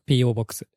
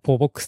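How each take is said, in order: First: The name is said with spelled letters, P-O box. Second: The name is said as one word, po-box. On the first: The speaker calls it right. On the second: The speaker calls it wrong.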